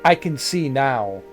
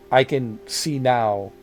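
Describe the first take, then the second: No difference in how they are said.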